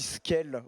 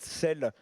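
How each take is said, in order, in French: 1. Le mot commence par un son sk. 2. Le mot commence par un simple son s. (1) "on dit Skel au lieu de Sel" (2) "au lieu de Sel"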